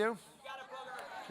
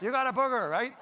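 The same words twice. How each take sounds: First: Put-on slow whisper like a blunt four-year-old; a little kid stating it in a hushed whisper; whispered child. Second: Laughing repeat. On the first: Four-year-old pointing out a booger, slow whisper. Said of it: "What would they do?". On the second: Retold or imitated.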